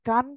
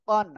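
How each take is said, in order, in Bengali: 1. এই অক্ষরটি চিকন আওয়াজে বলা হয়। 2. এই অক্ষরটি মোটা আওয়াজে বলা হয়। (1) "এই কফের জায়গায় বলে কান" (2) "আওয়াজটা মোটা হবে"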